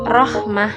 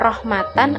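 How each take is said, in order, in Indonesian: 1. Kata ini berakhir dengan bunyi h yang pendek. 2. Kata ini berakhir dengan suku kata tan. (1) "tetapi dibaca rahmah" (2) "bukan rahmatan"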